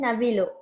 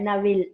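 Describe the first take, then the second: First: The word ends with a full final vowel. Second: The word stops short on the l sound. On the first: "full ಆಗಿ ಲೂ ಹೇಳ್ದುಲೆ" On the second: "ಅರ್ಧದಲ್ಲಿ ಲ್ ನಿಲ್ಸಿ ಬಿಟ್ಟಲ್ಲ"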